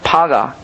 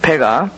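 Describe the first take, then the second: First: The first vowel sounds like 'ah'. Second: The first vowel sounds like 'ae'. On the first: The speaker calls it right. "파가 파가라는 어, 말을 사용하고 있습니다" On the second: The speaker calls it wrong. "패가 파가입니까? 죄송합니다"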